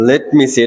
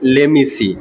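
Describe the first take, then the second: First: 'Let' and 'me' are said as separate words. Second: 'Let me' is blended into one word, 'lemme'.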